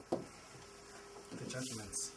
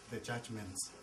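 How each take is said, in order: First: Slow breathy whisper of "The judgments". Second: Said in the usual way. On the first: Shown as a demonstration. Repeats key word for emphasis.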